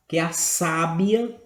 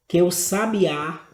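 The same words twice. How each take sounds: First: "sábia" with the stress on the first syllable, SÁ-bia. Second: "sabiá" with the stress on the last syllable, sa-bi-Á, a bit louder; stress on BIÁ. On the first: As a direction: say "sábia" as SÁ-bia, slowly and clearly. ("sábia" com tônica no SÁ) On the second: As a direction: land hard on the final Á of "sabiá". ("sabiá" com tônica no Á final) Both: Shown as a demonstration. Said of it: "palavras em negrito aqui".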